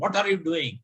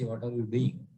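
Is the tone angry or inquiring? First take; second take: angry; inquiring. First: It is shouted angrily at someone. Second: It is asked as a calm question.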